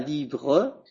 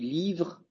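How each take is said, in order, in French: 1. Le e final se prononce comme une voyelle. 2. Le e final est muet. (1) "Je dis pas livre" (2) "je dis livre"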